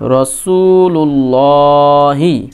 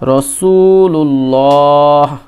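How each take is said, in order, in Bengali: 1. শব্দটি ছোট 'i' স্বরধ্বনি দিয়ে শেষ হয়েছে। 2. শব্দটি 'h' ব্যঞ্জনধ্বনিতে শেষ হয়েছে।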